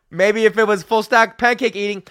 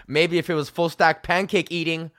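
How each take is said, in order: First: Louder, higher, laughing through the line; laughing repeat. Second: Said in the usual way. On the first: Real, not acted. Comedian repeats his pancake joke, laughing loudly. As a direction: crack up at your own joke.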